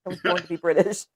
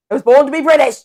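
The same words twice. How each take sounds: First: Low-key put-on British accent. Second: Loud, higher British proclamation; emphatic British accent. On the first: Claiming a British birthright, put-on British accent. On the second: Claiming a British birthright, loud mock British accent. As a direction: declare it grandly in mock British. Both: Shown as a demonstration. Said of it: "It sounds better".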